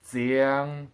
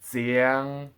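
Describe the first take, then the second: The two takes are said the same way.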